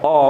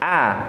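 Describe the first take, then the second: First: A thick vowel said with rounded lips. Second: A thin vowel said with lips slightly smiling. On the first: The speaker calls it wrong. "itu tebal enggak boleh" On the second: The speaker calls it right. "bibirnya disenyumkan sedikit"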